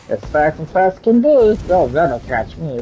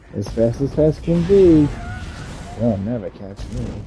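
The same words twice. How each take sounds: First: It is said in a weird put-on voice. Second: It is said in his normal voice.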